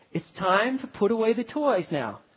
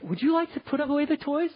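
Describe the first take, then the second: First: Said in the usual way. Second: Higher, coaxing question; mock pleading parent offering a choice; lightly voiced asking parent; asking permission. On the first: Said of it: "You say". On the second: Shown as a demonstration. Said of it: "Don't say".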